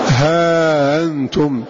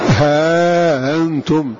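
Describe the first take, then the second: First: Long vowel, then a softened glottal stop. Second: The same.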